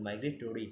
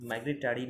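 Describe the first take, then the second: First: মাইগ্রেটরি with "-tori" at the end; মাইগ্রেটরি with an o vowel before ri; correct pronunciation. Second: মাইগ্রেটারি with "-tari" at the end; মাইগ্রেটারি misread with an a vowel before ri; wrong pronunciation. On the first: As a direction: say মাইগ্রেটরি as "migre-TO-ri". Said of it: "নয় কিন্তু মাইগ্রেটরি". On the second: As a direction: say মাইগ্রেটারি as "migre-TA-ri". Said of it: "নয় কিন্তু". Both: Shown as a demonstration.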